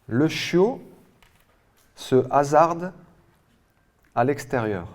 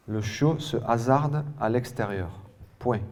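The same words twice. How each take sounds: First: "Le chiot", "se hasarde", "à l'extérieur" with long pauses between; rising on "chiot", falling on "extérieur", piece by piece; chunked dictation. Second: "Le chiot se hasarde à l'extérieur" in one even phrase; measured reading, falling on "extérieur"; joined-up dictation repeat. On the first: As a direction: project "Le chiot" and "se hasarde" high and loud, pausing after each. Dictation, first reading in chunks. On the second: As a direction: repeat the sentence whole, without breaks. Dictation repeated as whole sentence. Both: Real, not acted.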